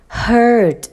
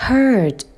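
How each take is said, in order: Both takes have the same delivery.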